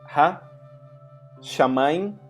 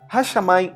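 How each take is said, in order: First: There is a pause between ha and shamayim. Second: Ha and shamayim run together without a pause. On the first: It shows that ha is a separate article. "Eu dei uma pausa para você entender que esse ha é um artigo" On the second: It is read as one word. "a gente lê de uma vez só"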